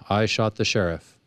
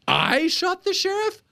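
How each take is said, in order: First: It sounds like a flat admission of guilt. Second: It sounds like an incredulous, denying question.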